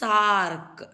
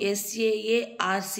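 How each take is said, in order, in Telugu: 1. అక్షరాలన్నీ కలిపి ఒకే పదంగా పలుకుతారు. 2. ప్రతి అక్షరాన్ని విడివిడిగా పలుకుతారు. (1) "దీన్ని ఎలా పలకాలి అంటే సార్క్" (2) "ఎస్ఏఏఆర్సి అని ప్రొనౌన్స్ చేయను"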